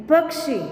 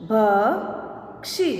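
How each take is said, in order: First: Said in the usual way. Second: Slow, each sound drawn out, rising at the end; slow drawn-out reading. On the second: Shown as a demonstration. Teacher slowly sounding out a word for students, drawn out. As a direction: stretch the word slowly for the class. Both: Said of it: "अब इसका शब्द हम देखें".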